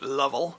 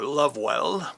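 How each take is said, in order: First: The name is shortened to Lov-ell. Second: The name is said in full as Love-well. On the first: "I believe he pronounced it Lovell" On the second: "or Lovewell"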